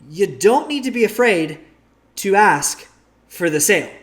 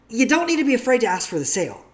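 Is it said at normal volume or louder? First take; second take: louder; normal. First: It is said more loudly. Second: It is said at normal volume.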